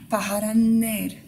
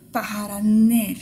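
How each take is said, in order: First: Paharan ner again, slow, the N sounds pronounced; both N sounds clear. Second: Paharan ner, slow, both N sounds ringing clearly. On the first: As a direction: make the N sounds in Paharan ner heard, slowly. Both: Shown as a demonstration. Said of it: "il y a bien deux N, faut qu'on entende".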